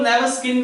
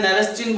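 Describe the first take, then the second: First: नेवस स्किन with a "skin" ending, s-k sound; alternative name pronunciation. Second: नेवस चिन with a "chin" ending, ch sound; preferred name pronunciation. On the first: Teacher showing students how some people say it, नेवस स्किन with a "skin" ending. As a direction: say नेवस स्किन, last part like English "skin". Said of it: "कुछ लोग नेवस स्किन भी बोल देते हैं". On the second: Teacher giving students his own way of saying it, नेवस चिन with a "chin" ending. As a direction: say नेवस चिन, last part like English "chin", no k. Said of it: "मैं नेवस चिन बोलता हूं भाई".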